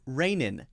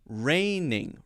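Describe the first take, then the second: First: Both nasal sounds are made with the tongue tip. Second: A tongue-tip nasal comes first, then a tongue-back nasal. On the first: The speaker calls it wrong. "Rainin would be using the N sound twice" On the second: The speaker calls it right. "It's got to be first the N sound, then the N G sound"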